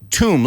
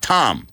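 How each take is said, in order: First: The vowel is long and rounded, like 'moon'. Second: The vowel is short and open, like 'hot'. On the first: The speaker calls it right. "Silent B. Okay?" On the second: The speaker calls it wrong. "Not Tom. Tom is a guy's name"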